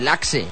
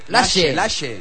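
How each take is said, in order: First: The middle consonant is not a 'sh' sound. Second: The middle consonant is a 'sh' sound. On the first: The speaker calls it wrong. "no se dice Laxe" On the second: The speaker calls it right. "Como si fuera she's en inglés, la SH inglesa"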